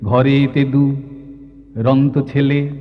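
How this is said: The word is broken apart after its first syllable. The speaker calls it wrong. "এই দুরন্ত শব্দটা এরকম করে ভেঙে গেলে বোঝাবো কি করে?"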